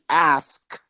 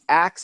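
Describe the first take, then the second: First: The s sound comes before the k sound. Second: The k sound comes before the s sound. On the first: The speaker calls it right. "it's actually ask" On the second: The speaker calls it wrong. "the axe"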